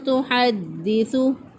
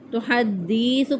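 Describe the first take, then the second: First: The vowel after the 'd' is kept short. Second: The vowel after the 'd' is drawn out long. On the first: The speaker calls it right. "दुरुस्त अदायगी है" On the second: The speaker calls it wrong. "दाल के बाद जो है वो या का इजाफा कर देते हैं, इसको लंबा कर देते हैं"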